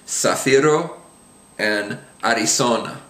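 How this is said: The z is pronounced like an s sound. "in Latin America, again, it sounds like an S"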